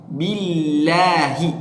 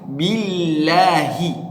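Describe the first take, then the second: No difference in how they are said.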